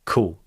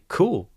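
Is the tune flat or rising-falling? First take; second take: flat; rising-falling. First: The pitch stays flat without emotion. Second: The pitch rises and then falls. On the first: It is said with no real feeling. "just saying" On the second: It shows a genuine emotional reaction. "you could say"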